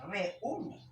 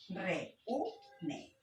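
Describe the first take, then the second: First: REÚNE more connected, still two vowels, RE-Ú-ne; hiatus demo. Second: REÚNE slowly split as re, ú, ne; syllable-by-syllable hiatus. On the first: Teacher repeating the hiatus example, quicker separate vowels. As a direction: say REÚNE briskly with E and stressed Ú distinct. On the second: Teacher showing vowels never go together, split syllables. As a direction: separate each syllable of REÚNE, pausing between. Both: Shown as a demonstration. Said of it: "Acá nunca pueden ir juntas".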